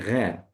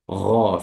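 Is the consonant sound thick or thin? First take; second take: thin; thick. First: The consonant is thin and light. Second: The consonant is thick and fills the mouth. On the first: The speaker calls it wrong. "We don't say gha" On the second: The speaker calls it right. "sound should be thick, saying gha, filling the whole mouth"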